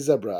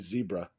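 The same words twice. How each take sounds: First: Zebra is said the British way. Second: Zebra is said the North American way. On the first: This form matches how the word is written. "I would say zebra" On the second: This is the form learned in childhood. "if I wasn't conditioned as a child to say zebra"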